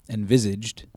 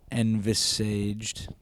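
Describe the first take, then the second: First: "Envisaged" said clearly as en-VIZ-ijd; confident pronunciation. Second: Slow halting "Envisaged" sounded out as ɛnv-s-ʒd; stumbling pronunciation. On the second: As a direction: drag out "Envisaged" unsure, dropping vowels. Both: Real, not acted. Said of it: "That's gotta be how you say it".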